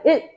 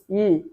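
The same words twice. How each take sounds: First: The final l sound is closed off quickly. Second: The final l sound is held and flows. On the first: "빠르게 닫히는 거야" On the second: "일이라고 발음하지"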